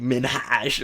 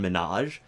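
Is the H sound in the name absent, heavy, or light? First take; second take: heavy; absent. First: The name is said with a heavy H sound. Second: The name is said with no H sound. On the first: "I don't want to hit the the H too hard" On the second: "people say well Hassan Minaj"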